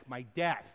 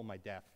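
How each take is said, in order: First: "death" punched louder to correct a mishearing; stress on death. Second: Said in the usual way. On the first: Acted. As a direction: hit the word "death" hard. Corrects listener who heard desk.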